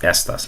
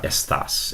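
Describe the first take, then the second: First: "estas" stressed on the first syllable, ES-tas. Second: "estás" stressed on the last syllable, es-TAS. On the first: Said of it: "It's pronounced estas". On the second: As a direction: say "estás" as es-TAS, the wrong form here. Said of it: "not estás". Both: Shown as a demonstration.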